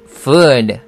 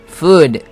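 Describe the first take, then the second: First: The vowel is long and drawn out. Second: The vowel is short and clipped. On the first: It means something to eat. The speaker calls it right. "길게 끌어줘야 됩니다" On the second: It sounds like the word for a body part, not eating. The speaker calls it wrong. "만약에 짧게 발음하면 food"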